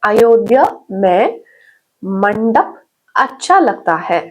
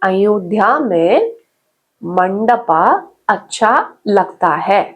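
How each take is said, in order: First: The word mandap ends on the consonant, vowel dropped. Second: The word mandap ends with a long 'aa' vowel. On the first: The speaker calls it right. "அதை குறைச்சிருங்க" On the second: The speaker calls it wrong. "மண்டபா அப்படின்னு use பண்றீங்க"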